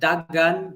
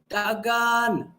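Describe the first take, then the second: First: The vowel is said short and plain. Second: The vowel is drawn out long. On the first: It means run. "dagan is run" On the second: It means run very fast. "that's run very fast"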